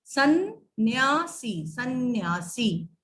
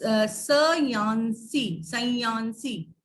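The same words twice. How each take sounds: First: सन्यासी slowly with a doubled n, sann-yaasi; correct form. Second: सयांसी said very slowly with the nasal on ya, sa-yaan-si; wrong reading. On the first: Teacher giving pupils the pure form, slow सन्यासी. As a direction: hold the n in सन्यासी. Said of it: "दोनों का स्वर सुनाई पड़ रहा है". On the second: Teacher showing pupils the misplaced dot, slow wrong सयांसी. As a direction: drag out the misread सयांसी. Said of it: "इसका उच्चारण करेंगे तो ये हो जाएगा". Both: Shown as a demonstration.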